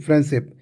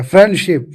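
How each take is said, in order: First: Said in the usual way. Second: फ्रेंडशिप in two distinct parts, "friend-ship"; split into parts. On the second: Shown as a demonstration. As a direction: set both halves of फ्रेंडशिप apart clearly. (फ्रेंडशिप के दोनों हिस्से अलग-अलग, साफ़) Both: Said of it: "अंत में syllable जोड़कर".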